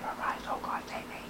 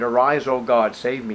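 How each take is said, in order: First: The phrase is said quietly and timidly. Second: The phrase is said loudly and forcefully. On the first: It is a timid plea muttered under the breath. The speaker calls it wrong. "he didn't say" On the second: It is a desperate plea from deep within. The speaker calls it right. "He shouted it out"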